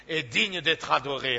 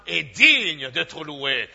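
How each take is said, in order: First: Said in the usual way. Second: Each word of "est digne d'être loué" drawn out slowly and pressed loud; solemn, very slow praise from the pulpit; slow weighty acclamation. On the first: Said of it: "softer echo of the acclamation". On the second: Acted. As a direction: lean hard on "digne" as if carving it in stone. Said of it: "slowed, weighty acclamation".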